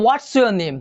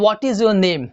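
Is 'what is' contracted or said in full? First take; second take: contracted; full. First: 'What is' is shortened to 'what's'. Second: Both words 'what is' are said in full. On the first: "व्हाट इज को उसका short" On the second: "व्हाट इज your name अगर आपने पूछा, सही है"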